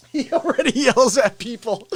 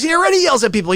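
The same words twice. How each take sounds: First: Said through real laughter; laughing. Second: Said in the usual way. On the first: Real, not acted. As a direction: laugh as you repeat it. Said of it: "Sammy nailed it". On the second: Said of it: "Sammy goes".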